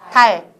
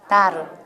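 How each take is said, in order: First: The final consonant stops the air with no vowel. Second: The final consonant is released with air and vowel. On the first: "공기 멈추죠?" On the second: "공기를 내보내면서 발음해 보세요"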